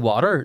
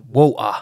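First: The word is said in the speaker's own accent. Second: The word is said in a London accent. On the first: This is how the speaker normally says it. "I say water" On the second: This is how the London man said it. "he literally said"

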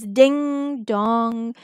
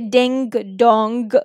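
First: The final g sounds are barely pronounced. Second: The final g sounds are pronounced strongly. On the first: The speaker calls it right. "It's ding dong" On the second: The speaker calls it wrong. "We don't say ding dong"

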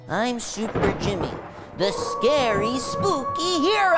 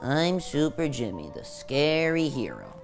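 First: It is said with conviction and energy. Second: It is said half-heartedly, with a sigh.

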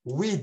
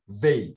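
First: The word is said as 'we'. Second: The word is said as 'vey'. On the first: The speaker calls it wrong. "We değil ha" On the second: The speaker calls it right. "Vey okuyoruz bunu"

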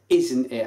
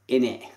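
First: Both words are said in full, with the t. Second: The words are reduced, with no t sound. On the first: The speaker calls it right. "we got the word out right" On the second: The speaker calls it wrong. "My Barry accent nearly came through then"

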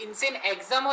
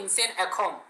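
First: The second word sounds like 'exam'. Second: The second word sounds like 'akhom'. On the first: The speaker calls it wrong. "बहुत से लोग insane एग्जाम pronounce करते हैं" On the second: The speaker calls it right. "उसको एग्जाम नहीं अखोम बोलते हैं"

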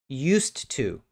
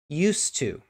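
First: The D sound at the end of 'used' is silent. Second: The same.

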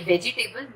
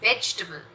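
First: The vowel after 'veg' is clearly pronounced. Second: The vowel after 'veg' is dropped entirely. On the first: The speaker calls it wrong. "पर ये वेजिटेबल नहीं है" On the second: The speaker calls it right. "ये जो ई का sound है उसे हम प्रोनाउंस नहीं करते"

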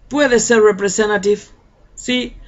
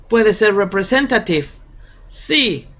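No difference in how they are said.

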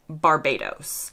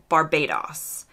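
First: The final O is said the American way. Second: The final O is said the British way. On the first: "In the US, we would say" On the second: "in the UK, it sounds like"

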